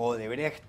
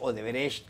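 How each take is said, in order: First: The 'ch' sounds like a harsh throaty h. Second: The 'ch' sounds like an sh sound. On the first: "como una J" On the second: "con la C H o la S H"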